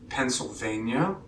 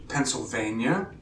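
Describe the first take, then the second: The two takes are said the same way.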